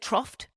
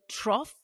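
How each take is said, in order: First: The word ends with an added t sound. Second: The word ends without an added t sound. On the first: The speaker calls it wrong. "I was saying troughed. I added a T" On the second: The speaker calls it right. "I was saying the word trough incorrectly for years"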